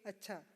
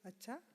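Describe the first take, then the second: First: It sounds plain and agreeing. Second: It sounds gossipy and intrigued. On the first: The speaker agrees; it means okay. "or agreement, simply okay" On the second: The listener wants to hear more gossip. "A common word used while gossiping"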